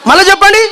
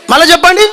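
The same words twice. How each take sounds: The two takes are said the same way.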